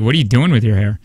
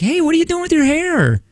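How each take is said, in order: First: The question sounds insulting and judgmental. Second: The question sounds friendly and curious.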